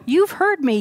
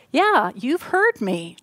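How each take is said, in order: First: "You've heard me" higher, punching "You've"; higher, eager "You've heard me"; emphatic repeat. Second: Said in the usual way. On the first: Retold or imitated. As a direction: repeat it with lifted delight. Emphatic repeat of relieved quote.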